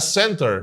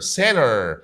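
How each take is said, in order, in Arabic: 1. الـ t بعد الـ n تُنطق. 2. الـ t بعد الـ n تُحذف.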